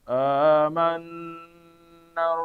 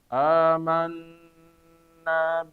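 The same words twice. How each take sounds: No difference in how they are said.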